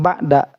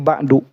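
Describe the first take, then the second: First: The word ends with an 'a' vowel. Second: The word ends with a 'u' vowel. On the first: The speaker calls it wrong. "maka dibacanya bukan ba'da" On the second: The speaker calls it right. "tapi ba'du"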